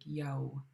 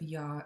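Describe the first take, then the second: First: The vowel glides into a lip-rounded w sound. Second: The vowel is a plain open ah sound. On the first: The speaker calls it right. "you actually round your lips for every single W" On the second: The speaker calls it wrong. "when you have an A W, you just pronounce it ah, like awesome"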